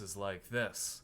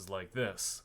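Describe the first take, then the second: First: The voice sounds supported, pushed from the diaphragm. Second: The voice sounds lower, drawn from the belly. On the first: "my diaphragm voice is like this" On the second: "my belly voice is like this"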